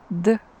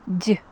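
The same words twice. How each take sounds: First: The d is hard, without palatalization. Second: The d is soft, with palatalization. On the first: "It can be hard" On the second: "can have soft sound"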